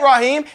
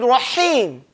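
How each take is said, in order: First: The h sound is soft and weak. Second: The h sound is strong and forceful. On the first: The speaker calls it wrong. "His name ain't Rahim" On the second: The speaker calls it right. "His name is Rahim. That ha"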